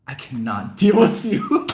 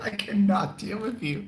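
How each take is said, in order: First: Louder, laughing through the words; laughing exasperation. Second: Higher, giggling through it; laughing repeat. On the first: Retelling the reaction to the coworker, laughing and louder. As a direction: let a laugh break into the line. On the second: Repeating the reaction to the viewers, higher and laughing. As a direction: say it again, cracking up. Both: Retold or imitated.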